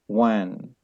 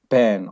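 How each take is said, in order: First: The word begins with a w sound. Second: The word begins with a b sound. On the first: "some people they use the sound of wa" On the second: "some people they use the sound of ba"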